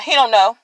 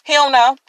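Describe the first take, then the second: First: "He" hit hardest, the rest falling away; stress on HE. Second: "don't" hit hardest and stretched; stress on DON'T. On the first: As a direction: lean on "He" in "He don't know.". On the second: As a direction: lean on "don't" in "He don't know.". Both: Retold or imitated. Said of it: "And I'm like".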